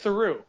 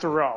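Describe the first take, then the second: First: The name ends with a sound like 'true'. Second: The name is said with a French pronunciation. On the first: The speaker calls it right. "you pronounce it Theroux, like true" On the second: The speaker calls it wrong. "Not Theroux"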